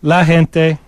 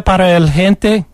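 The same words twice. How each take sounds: First: "La gente" with feminine la, gente as hen-te; corrected article. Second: "el gente" with the masculine article el before gente; wrong article. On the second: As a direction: say "para el gente" with el, not la. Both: Shown as a demonstration.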